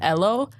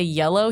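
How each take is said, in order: First: The word begins with a vowel sound. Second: The word begins with a y sound. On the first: "He says ello" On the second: "my dad doesn't say yellow"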